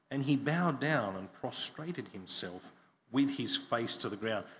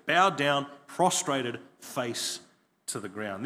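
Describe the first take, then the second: First: Said in the usual way. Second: "Bowed down", "prostrated", "face" each stressed, with pauses between; preacher pressing home each phrase of the bow; emphasis on each phrase. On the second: Shown as a demonstration. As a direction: set apart "Bowed down", "prostrated" and "face to the ground" as separate weighty beats. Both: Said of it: "Notice the emphasis there".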